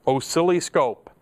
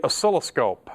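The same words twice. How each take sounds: First: "oscilloscope" stretched out, middle turned into "silly"; joke pronunciation. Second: Said in the usual way. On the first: Shown as a demonstration. Teacher recapping meters, "oscilloscope" playfully said as "oh-silly-scope".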